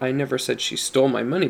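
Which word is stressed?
stole. The stress is on "stole".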